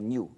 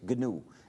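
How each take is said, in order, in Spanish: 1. Se pronuncia con sonidos españoles. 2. Se pronuncia con sonidos ingleses. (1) "en español se pronuncia" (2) "en inglés"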